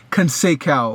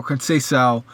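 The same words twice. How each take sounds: First: Conseil said as kon-say-KOW; alternative pronunciation. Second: Conseil said as kon-say-SOW; alternative pronunciation. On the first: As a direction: say Conseil with a hard k, ending like "cow". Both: Shown as a demonstration. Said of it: "however you pronounce his name".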